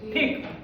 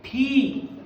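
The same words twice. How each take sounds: First: The vowel is kept short. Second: The vowel is held long. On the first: The speaker calls it wrong. "छोटी की मात्रा कम समय ले रही, तो हम इसको पढ़ेंगे" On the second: The speaker calls it right. "बड़ी की मात्रा क्या लेगी, ज्यादा समय लेगी।"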